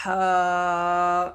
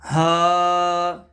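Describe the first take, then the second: First: ہا breathed from the middle of the throat. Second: ہا pushed from the bottom of the throat, louder; ہا from the base of the throat; deep-throat ha. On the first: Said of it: "middle part of the throat". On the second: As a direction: breathe ہا up from low in the throat. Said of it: "bottom the throat". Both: Shown as a demonstration.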